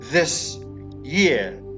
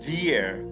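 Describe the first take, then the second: First: The s at the end of 'this' stays plain. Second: The s blends with the y into a sh-like sound. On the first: "the word this year" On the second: "you would just say the year"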